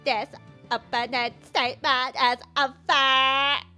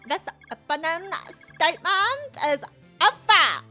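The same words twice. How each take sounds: First: A robotic-sounding Valley Girl voice. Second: A natural, human-sounding Valley Girl voice. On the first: The speaker calls it right. "I should do it in a robot" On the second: The speaker calls it wrong. "I was so right to give her a valley voice"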